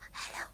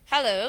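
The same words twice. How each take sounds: First: It is said very quietly and low. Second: It is said at normal conversational volume. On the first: "low scale is hello, hello, something like that. Okay, very low" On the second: "the middle scale is um, the way we talk"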